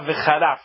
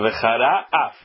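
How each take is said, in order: First: The words run together as a single word. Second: The words are said separately with a break. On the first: It means God will curse. The speaker calls it wrong. "não falar vecharaf de uma vez só" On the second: It means God will become angry. The speaker calls it right. "são duas palavras"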